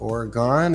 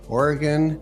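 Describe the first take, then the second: First: Oregon is pronounced the way some outsiders say it. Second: Oregon is pronounced the way locals say it. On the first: This is how some people outside the state say it. The speaker calls it wrong. "as some people say" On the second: This is how residents of the state say it. The speaker calls it right. "Oregon, not"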